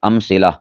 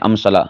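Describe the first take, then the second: First: The second vowel sounds like 'i'. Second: The second vowel sounds like 'a'. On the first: The speaker calls it right. "ठीक है" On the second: The speaker calls it wrong. "इसे अमसला बोल देते हैं, ये गलत है"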